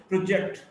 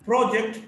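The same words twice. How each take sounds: First: "project" as pro-JECT; weak start, strong JECT in "project"; stress on second syllable. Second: "project" as PRO-ject; stress on first syllable. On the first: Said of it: "stressed in the second syllable". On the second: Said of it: "stressed in the first syllable". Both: Shown as a demonstration.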